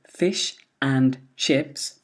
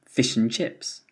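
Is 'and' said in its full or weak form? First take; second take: full; weak. First: The word 'and' keeps its full vowel. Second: The word 'and' is reduced to a weak vowel.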